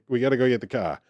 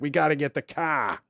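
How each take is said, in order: First: It is said quickly, as if in a hurry. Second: It is said in an annoyed, angry way.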